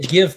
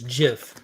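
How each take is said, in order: First: The word begins with a hard G sound. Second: The word begins with a J sound. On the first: The speaker calls it right. "I say GIF" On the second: The speaker calls it wrong. "the creator of says GIF"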